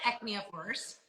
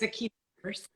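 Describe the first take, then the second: First: The first word sounds like 'ecnia'. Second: The first word sounds like 'echina'. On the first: The speaker calls it wrong. "I call it ecnia force" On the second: The speaker calls it right. "but it's echina force"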